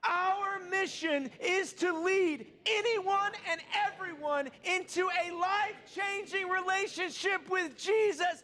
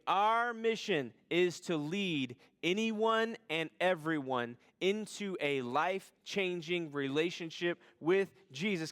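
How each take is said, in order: First: It is said with extra force and energy. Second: It is said with plain, ordinary energy.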